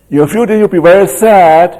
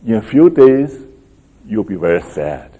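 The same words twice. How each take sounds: First: Higher and louder, leaning on "few" and "sad"; emphatic repeat. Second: Said in the usual way. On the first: Retold or imitated. Teacher repeating Jesus's warning to the disciples, emphatic.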